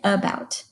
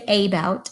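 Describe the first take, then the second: First: The first vowel is a weak uh sound. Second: The first vowel is a full, clear vowel. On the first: The speaker calls it right. "We say about. That uh sound is called the schwa" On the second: The speaker calls it wrong. "We don't say about"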